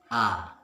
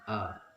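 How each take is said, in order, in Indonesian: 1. Vokal ini diucapkan dengan mulut terbuka lebar. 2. Vokal ini diucapkan tanpa membuka mulut. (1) "mulut dibuka" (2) "tidak dibuka mulut, maka kurang sempurna"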